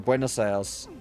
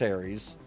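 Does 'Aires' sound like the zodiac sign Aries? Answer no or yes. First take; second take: no; yes. First: The word is not said like the sign Aries. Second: The word is said like the sign Aries. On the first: The speaker calls it right. "is how it's actually pronounced" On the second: The speaker calls it wrong. "It's not pronounced Aries"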